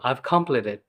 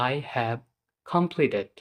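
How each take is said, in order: First: 'I have' is contracted to one syllable. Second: 'I have' is said as two full words. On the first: The listener could not understand it. "আমি আবারও বললাম" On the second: The listener could understand it. "তারপর আমি বাধ্য হয়ে বললাম"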